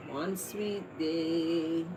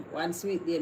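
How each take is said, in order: First: One sweet day, each word stretched very slowly; very slow, longing phrasing; dreamy slow vow. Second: Said in the usual way. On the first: Shown as a demonstration. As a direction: savour the words like a wish.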